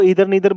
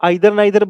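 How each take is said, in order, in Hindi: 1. पहला स्वर 'ee' जैसा सुनाई देता है। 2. पहला स्वर 'eye' जैसा सुनाई देता है। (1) "ईदर नीदर बोलो, कोई फर्क नहीं पड़ता" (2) "इसको आइदर नाइदर बोलो"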